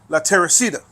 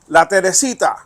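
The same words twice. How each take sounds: First: The name is said with an American accent. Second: The name is said with a Spanish accent.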